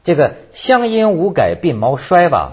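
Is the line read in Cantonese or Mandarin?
Mandarin. It is read in standard Mandarin.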